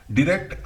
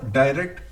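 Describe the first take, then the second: First: डायरेक्ट said the American way, "di-rect"; American pronunciation. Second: डायरेक्ट said the British way, "dai-rect"; British pronunciation. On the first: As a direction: give डायरेक्ट the American vowel. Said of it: "डायरेक्ट American English है". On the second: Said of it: "डायरेक्ट British English है". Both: Shown as a demonstration.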